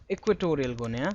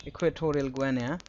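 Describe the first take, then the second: First: Said in the usual way. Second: Equatorial Guinea said with Guinea as gwan-ya; other accent. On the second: Shown as a demonstration. Teacher showing students the other accent for Guinea, gwan-ya. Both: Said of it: "in the accent otherwise".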